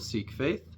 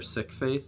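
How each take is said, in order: First: Sikh is said the common English way. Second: Sikh is said the community's own way.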